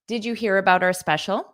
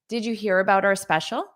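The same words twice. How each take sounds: Both takes have the same delivery.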